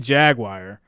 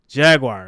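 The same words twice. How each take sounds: First: It sounds like two words, jag and wire. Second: It flows out smoothly as one word. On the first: This is how people up north say it. "it sounds like the word jag and then the word wire" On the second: This is how others say it. "Like it's supposed to just flow out"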